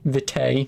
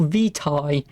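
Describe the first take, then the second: First: "vitae" corrected to VIT-ay. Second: "vitae" said vee-TIE, Latin style. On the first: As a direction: say "vitae" as vit-ay, English style. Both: Shown as a demonstration. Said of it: "Sorry, vitae".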